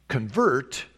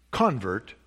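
First: ConVERT, second syllable stressed. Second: CONvert, first syllable stressed. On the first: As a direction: land hard on the final syllable of "convert". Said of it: "emphasis on the second syllable". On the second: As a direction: lean on the opening syllable of "convert". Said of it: "emphasis on the first syllable". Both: Shown as a demonstration.

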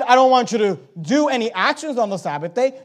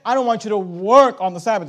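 First: Said in the usual way. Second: Preacher pressing the word work home; stress on work. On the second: Shown as a demonstration. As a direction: lean hard on work as the key word. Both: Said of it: "No, he said".

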